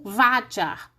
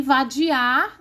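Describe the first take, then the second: First: Vadiar with stress shifted to va, ending weakly; slow vadiar, hit the first syllable only. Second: Vadiar drawn out with stress on the final ar; slow vadiar, lean on its last syllable. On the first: Teacher making it rhyme with César, vadiar stressed at the front. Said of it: "aí rimaria com César". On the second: Teacher showing students the real stress, vadiar stressed on the end. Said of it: "teria que ser Cesar". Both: Shown as a demonstration.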